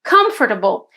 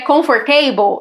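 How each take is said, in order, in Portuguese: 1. A tônica cai na primeira sílaba. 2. A tônica cai em uma sílaba posterior. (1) "A gente coloca a sílaba tônica na primeira sílaba" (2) "Não é comfortable"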